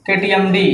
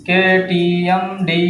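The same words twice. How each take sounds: First: Said in the usual way. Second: Slow dictation of केटीएमडी; slowly spelled out. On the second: Shown as a demonstration. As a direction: draw out केटीएमडी slowly, syllable by syllable.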